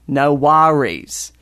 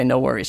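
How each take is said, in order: First: Slow, rounded Australian "no worries"; corrective, drawn-out Australian accent. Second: Said in the usual way. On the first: Retold or imitated. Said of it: "kind of, I don't know, sort of round and looping". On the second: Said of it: "your accent's all wrong".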